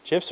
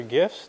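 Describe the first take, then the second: First: "gifs" said with a J sound, softer; "gifs" opening as in "jam". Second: "gifs" said with a hard G, rising in doubt; "gifs" as a softer question, G as in "go". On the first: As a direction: pronounce the first "gifs" like "jiffs". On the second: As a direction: pronounce the last "gifs" with the G of "gift". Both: Shown as a demonstration. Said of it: "Does anybody even really know".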